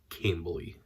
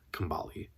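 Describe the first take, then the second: First: The stress falls on the first syllable. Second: The stress falls on a later syllable. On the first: The speaker calls it right. "the pronunciation's on the first uh, syllable" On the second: The speaker calls it wrong. "Nope, not Kambali"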